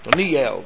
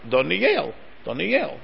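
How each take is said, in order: First: The stress is on the middle syllable. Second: The stress is on the last syllable. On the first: The speaker calls it wrong. "if you're saying Doniel, so then it's a shtickle tongue twister" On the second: The speaker calls it right. "because the accent's on the last syllable"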